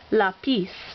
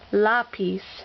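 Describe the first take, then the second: First: The stress is on the last syllable. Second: The stress is on the first syllable. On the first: The speaker calls it wrong. "its normal way of pronouncing" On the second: The speaker calls it right. "we want to say it with the emphasis on the first syllable"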